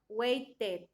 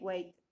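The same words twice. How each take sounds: First: The ending is said as a full, clear 'ed'. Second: The ending is said as a lighter, reduced 'ed'. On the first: The speaker calls it wrong. "no es claramente, por ejemplo, no es weighted" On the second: The speaker calls it right. "ese sonido de la ed varía un poquito"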